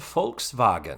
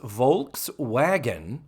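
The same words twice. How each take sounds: First: The first sound is an F sound. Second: The first sound is a V sound. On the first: "in German, I am told that the V is pronounced more like an F" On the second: "It is Volkswagen"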